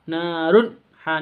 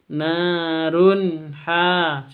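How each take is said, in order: First: The sound is cut off abruptly before 'ha'. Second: The sound flows smoothly and clearly into 'ha'. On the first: The speaker calls it wrong. "jangan disentak ... jangan seperti itu" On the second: The speaker calls it right. "yang betul narun ha"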